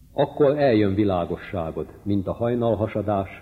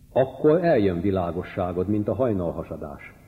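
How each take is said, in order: Both takes have the same delivery.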